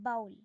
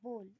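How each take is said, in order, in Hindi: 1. स्वर 'cow' में 'ow' जैसा सुनाई देता है। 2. स्वर 'go' में 'oh' जैसा सुनाई देता है। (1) "बहुत बच्चे इसको बाउल बोलते हैं" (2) "हम बोल कहते हैं"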